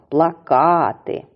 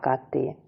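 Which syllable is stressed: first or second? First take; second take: second; first. First: The stress is on the second syllable. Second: The stress is on the first syllable. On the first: It means posters. "наголос в цім слові припадає на другий склад" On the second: It means to cry. "наголос падає на перший склад"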